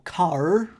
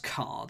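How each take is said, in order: First: It is said in a Bristol accent, strong R. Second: It is said in the speaker's plain accent.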